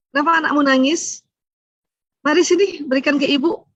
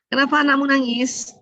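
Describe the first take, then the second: First: Higher, rising motherly concern; lightly acted eager, caring mother; birth mother's concern. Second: Higher, mildly reproachful question; lightly voiced disapproving mother-in-law; mother-in-law's questioning. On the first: Birth mother offering to take the crying baby, caring and higher. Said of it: "Coba ibu kandung". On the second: Mother-in-law questioning a young mother about the crying baby, mildly reproachful. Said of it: "intonasi aja udah beda tuh".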